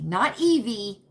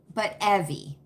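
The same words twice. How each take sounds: First: "Evie" said as EE-vee, long ee; not this Evie. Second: "Evie" said as EH-vee, short e; the right Evie. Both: Shown as a demonstration.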